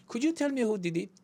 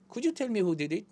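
First: "who did it" said light, vowels almost gone; reduced vowels demo. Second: "who did it" run together at normal pace, vowels barely there; natural-speed reduced vowels. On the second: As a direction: let "did it" blur into a quick flap. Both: Shown as a demonstration. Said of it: "소리가 있는 듯 마는 듯".

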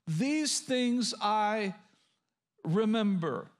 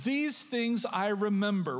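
First: Drawn out, pausing before "remember"; slow emphatic quotation. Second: Said in the usual way. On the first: Shown as a demonstration. Preacher repeats the verse for listeners to underline, slowly and deliberately. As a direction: stretch "These things I", pause, then land "remember".

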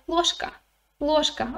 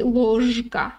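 First: Ложка said fast, the ж turning into ш, like лошка; quick ложка. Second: Ложка with a full buzzing ж, said slowly and carefully. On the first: Teacher showing how ложка sounds when said quickly. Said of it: "ж begins to sound like ш". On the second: Teacher showing the careful, voiced ж in ложка. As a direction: say ложка with a clear voiced ж, each sound separate. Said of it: "not very comfortable to say ложка". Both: Shown as a demonstration.

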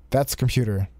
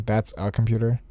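First: "That's computer" read flat with no "a" before "computer"; missing article. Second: "That's a computer" with a clear "a" before "computer"; with the article. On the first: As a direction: say "That's computer" as the game wrote it, skipping the a. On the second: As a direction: put the "a" back in "That's a computer". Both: Shown as a demonstration. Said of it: "I think there's supposed to be an "ah" in between there".

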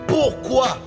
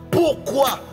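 The two takes are said the same way.

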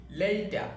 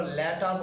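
First: "লেইটা" with a long ei glide, higher pitched. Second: "লেটার" with a short e in the first syllable; common mispronunciation. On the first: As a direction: say "লেইটা" as lei-ta, stretching the first vowel. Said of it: "এর উচ্চারণটা এই বলি". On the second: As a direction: say "লেটার" as let-ar, no ei glide. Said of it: "আমরা লেটার বলি না". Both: Shown as a demonstration.

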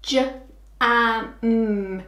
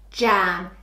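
First: J-a-m sounded out separately; sounding out for a child; sound talk. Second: Said in the usual way. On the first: Shown as a demonstration. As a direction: segment j-a-m slowly.

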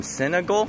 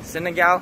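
First: "Senegal" with a swallowed last vowel, SIN-uh-gull; unsure pronunciation. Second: "Senegal" with a full final "gahl", questioning; unsure pronunciation. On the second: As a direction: say "Senegal" ending in an open "gahl". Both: Shown as a demonstration. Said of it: "I don't know how to pronounce it".

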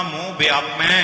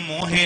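First: ਮੋਹ as one syllable, mo, straight into ਵਿਆਪੈ; corrected reading. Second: ਮੋਹ ਹੈ as mo-he, two syllables; misread extra syllable. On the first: Teacher giving the correct reading, ਮੋਹ as plain mo. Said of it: "ਇਹਨੂੰ ਪੜ੍ਹਨਾ ਮੋਹ ਵਿਆਪੈ". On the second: Teacher repeating what not to read, ਮੋਹ ਹੈ as mo-he. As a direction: voice the mistaken he ending in ਮੋਹ ਹੈ. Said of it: "ਇਹਨੂੰ ਮੋਹ ਹੈ ਨਹੀਂ ਪੜ੍ਹਨਾ". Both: Shown as a demonstration.

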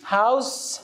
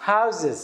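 First: "هاوس" ending in a clear s; rising "هاوس", held open for contrast with the plural; singular with S sound. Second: "Houses" with the middle s voiced as z; two-syllable "Houses", buzzing z rather than s; plural with Z sound. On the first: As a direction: say "هاوس" as one syllable closing on s. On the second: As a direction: say "Houses" as HOW-ziz. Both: Shown as a demonstration.

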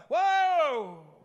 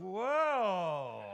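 First: High, loud, drawn-out whoa; urgent stop call, falling away; warning shout. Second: Long, swooping whoa that slides down; wowed by the wife's new dress; drawn-out appreciative exclamation; admiring whoa. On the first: Shown as a demonstration. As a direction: holler to stop a backing truck. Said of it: "if you're backing up a truck". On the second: Acted. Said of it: "she's got a new dress on".

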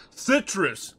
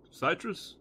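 First: "Citrus" said as SIT-russ, falling; correct citrus. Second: "citrus" said as SIGH-truss, questioning; mispronounced citrus. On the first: Streamer finding the word, "Citrus" as SIT-russ. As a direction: say "Citrus" with a short i, settled. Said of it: "There you go". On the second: Streamer trying out the word, "citrus" as SIGH-truss. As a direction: say "citrus" with a long eye vowel, unsure. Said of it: "how do you say that word". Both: Shown as a demonstration.

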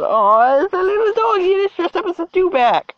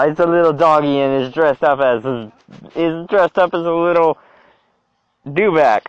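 First: Very high, squealed cooing; sky-high cutesy squeal. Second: Said in the usual way. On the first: Real, not acted. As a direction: squeal it like you're fussing over a puppy. Cooing over dressed-up dog, second try.

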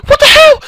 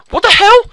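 First: Very high, very loud screech; escalated, ear-splitting astonishment; shrieked disbelief. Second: High, loud disbelief; loud gamer astonishment; shocked outburst. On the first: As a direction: scream it at the top of your range. Same shock, escalated at once. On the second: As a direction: yell it in startled disbelief. Startled by what happens in game. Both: Real, not acted.

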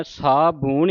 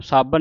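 First: ਸਾਬੂਣ with a long oo, 'saa-boon'; as written. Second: ਸਾਬਣ with short second vowel, 'saa-ban'; everyday form to avoid. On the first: Teacher tells the congregation how to recite, ਸਾਬੂਣ with long oo. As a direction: hold the oo in ਸਾਬੂਣ. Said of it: "ਸਾਬੂਣ ਹੀ ਕਹਿਣਾ ਉਹਨੂੰ". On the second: Teacher warns against the everyday word, ਸਾਬਣ with short a. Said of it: "ਸਾਬਣ ਨਹੀਂ ਕਹਿ ਦੇਣਾ". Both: Shown as a demonstration.

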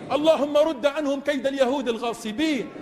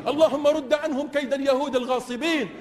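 Both takes have the same delivery.

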